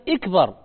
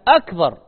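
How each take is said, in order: First: The word begins with an 'i' vowel. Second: The word begins with an 'a' vowel. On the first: The word is a command to make something great. The speaker calls it wrong. "وليست أكبر ... فيكسر الهمزة" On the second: The word means greater. The speaker calls it right. "هي أكبر"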